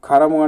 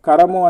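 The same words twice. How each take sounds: First: The first consonant is aspirated, with a breath. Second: The first consonant is unaspirated, without breath. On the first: The speaker calls it right. "మహాప్రాణం" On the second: The speaker calls it wrong. "అల్ప ప్రాణము"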